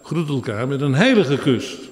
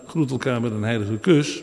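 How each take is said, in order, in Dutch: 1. De klemtoon valt op het woord heilige. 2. De klemtoon valt op het woord kus. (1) "De nadruk ligt op het woord heilig" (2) "Je moet dus niet vertalen"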